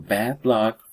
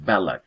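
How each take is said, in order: First: The D at the end of bad is pronounced. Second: The D at the end of bad merges away.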